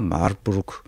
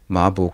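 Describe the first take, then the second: First: The r sounds are said as full syllables. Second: The r sounds are dropped, making it short. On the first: This follows the Korean written form. "우리는 쓸 때 마르부르크라고 쓰죠" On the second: This is how Germans say it. "마북이라고 독일 사람 발음하는데"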